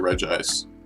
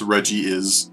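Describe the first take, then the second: First: It is said with two syllables, ending in ice. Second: It is said with three syllables, ending in is. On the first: The speaker calls it wrong. "it's just easier to say Reg Ice. That's not it either" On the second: The speaker calls it right. "It's pronounced Reggie is"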